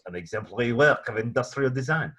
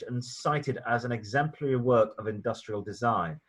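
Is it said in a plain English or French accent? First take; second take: French; plain English. First: It is said in a put-on French accent. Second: It is said in a plain English accent.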